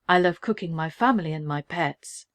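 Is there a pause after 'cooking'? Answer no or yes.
no. It runs on with no pause after cooking.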